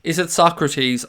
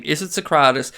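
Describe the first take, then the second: First: Socrates as SOCK-ruh-teez; alternative pronunciation. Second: Socrates as so-KRAH-tiss; trying a pronunciation. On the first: Host unsure of a footballer's name, Socrates said SOCK-ruh-teez. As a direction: say Socrates like the philosopher, first syllable stressed, ending "teez". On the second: Host unsure of a footballer's name, Socrates said so-KRAH-tiss. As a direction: say Socrates with stress on a long middle "KRAH". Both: Shown as a demonstration. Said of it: "I can't pronounce his name".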